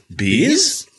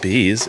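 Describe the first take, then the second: First: The voice rises at the end, like a question. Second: The voice falls at the end, like a statement. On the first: It is read as a question. The speaker calls it right. "It's bees?" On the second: It is read as a plain answer. The speaker calls it wrong. "it's not bees"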